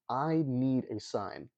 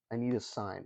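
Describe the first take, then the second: First: Slow, dragged-out, mock-impatient "I need a sign"; drawn-out demand. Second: Said in the usual way. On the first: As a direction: stretch each word of "I need a sign" like a fed-up archbishop.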